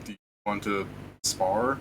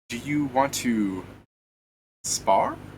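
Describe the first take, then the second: First: It is said in the speaker's ordinary voice. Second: It is said in a put-on character voice.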